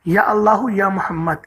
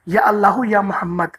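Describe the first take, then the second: The two takes are said the same way.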